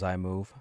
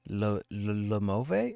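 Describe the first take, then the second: First: The name starts with an 'eye' sound. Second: The name starts with an 'L' sound. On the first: The speaker calls it right. "I didn't know it was iMove" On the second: The speaker calls it wrong. "how many ways I tried to pronounce that name"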